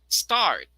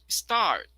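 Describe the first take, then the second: No difference in how they are said.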